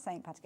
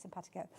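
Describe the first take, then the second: First: "Saint Patico" with a full word Saint before Patico; wrong two-word version. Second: "simpatico" run together, opening sim instead of Saint; correct one-word version. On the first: Host shows the mistaken form, "Saint Patico" as two words. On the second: Host corrects the mishearing, "simpatico" as a single word. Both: Shown as a demonstration. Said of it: "it's not Saint Patico".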